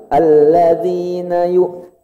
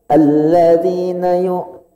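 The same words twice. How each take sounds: The two takes are said the same way.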